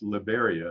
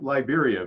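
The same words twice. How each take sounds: First: The name is said with a Spanish pronunciation. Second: The name is said with an English pronunciation. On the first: The speaker calls it right. "it's pronounced Liberia. It's the Spanish pronunciation" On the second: The speaker calls it wrong. "it looks like Liberia"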